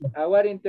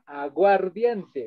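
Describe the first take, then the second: First: It is said with Aymara sounds. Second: It is said with Spanish sounds. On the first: The word is borrowed and adapted into Aymara. "aguarinti ha aguardiente" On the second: This is the original source word. "aguarinti ha aguardiente"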